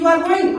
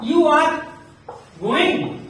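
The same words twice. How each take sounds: First: It is said with a questioning tune. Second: It is said as a plain statement. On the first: The speaker asks whether someone is going. "आप पूछ सकते" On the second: The speaker states that someone is going. "मैं कह रहा हूं कि"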